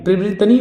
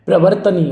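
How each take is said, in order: First: प्रवर्तनीय said "pri-vri-tani", higher pitch; mistaken ri sound. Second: प्रवर्तनीय said "pra-var-tani"; correct form. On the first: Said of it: "नहीं होता". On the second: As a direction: put r before t in प्रवर्तनीय. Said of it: "प्रवर्तनीय होता है". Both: Shown as a demonstration.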